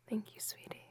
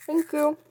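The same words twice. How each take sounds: First: Hushed close-up thanks; whispering. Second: Loud raised thanks from afar; calling out. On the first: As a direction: breathe the thanks softly. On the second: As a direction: call the thanks across the room. Calling across room. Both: Acted.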